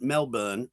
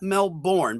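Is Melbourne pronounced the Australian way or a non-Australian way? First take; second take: Australian; non-Australian. First: Melbourne is pronounced the Australian way. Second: Melbourne is pronounced in a non-Australian way. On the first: The speaker calls it right. "Melbourne is what they say in Australia" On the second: The speaker calls it wrong. "not Melbourne"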